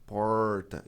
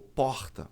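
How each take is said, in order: First: It has a strong retroflex caipira R. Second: It is said in a Rio accent.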